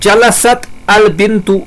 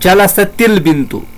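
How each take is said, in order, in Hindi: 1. क्रिया का अंत साकिन t पर होता है, उसके बाद al-bintu आता है। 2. t, bintu से एक जोड़े गए i स्वर के ज़रिए जुड़ता है। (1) "साकिन फेल है जलसत" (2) "साकिन फेल को अगले लफ्ज से मिलाना"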